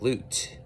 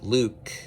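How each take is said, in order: First: The name ends with a t sound. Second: The name ends with a k sound. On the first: "it was with the t sound. So it was like loot" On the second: "saying Luke with the k"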